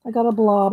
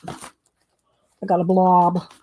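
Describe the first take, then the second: First: Said in the usual way. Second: Slow, drawn-out "I got a blob"; "I got a blob" said very slowly, with "blob" held long; drawn-out dismay. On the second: Real, not acted. Repeats the line about the paint.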